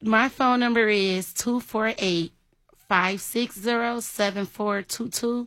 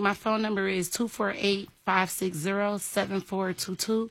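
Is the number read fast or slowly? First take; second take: slowly; fast. First: The number is read slowly. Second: The number is read fast.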